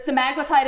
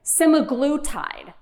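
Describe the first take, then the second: First: "semaglutide" as suh-MAG-luh-tide, quickly; quick "semaglutide" with weight on MAG; second-syllable stress. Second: "semaglutide" as SEM-uh-GLOO-tide, slowly; first-syllable stress. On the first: Host checks the other option, "semaglutide" as suh-MAG-luh-tide. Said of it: "Is it, is it semaglutide?". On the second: Host polls audience, "semaglutide" slow as SEM-uh-GLOO-tide. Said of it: "cheer if you say semaglutide". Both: Shown as a demonstration.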